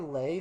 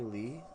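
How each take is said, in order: First: The vowel sounds like the one in 'day'. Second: The vowel sounds like the one in 'see'. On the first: "some people say Lay" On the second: "some people say Lee"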